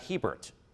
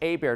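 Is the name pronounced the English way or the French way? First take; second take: English; French. First: The name is pronounced the English way. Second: The name is pronounced the French way. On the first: This is how outsiders say it. The speaker calls it wrong. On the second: This is how locals say it. The speaker calls it right. "it's French, you just know how to pronounce it"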